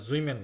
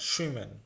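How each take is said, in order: First: The word begins without a sh sound. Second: The word begins with a sh sound. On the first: The speaker calls it wrong. "এটা জুইমেন না" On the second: The speaker calls it right. "S C H এর উচ্চারণ সবসময় শ"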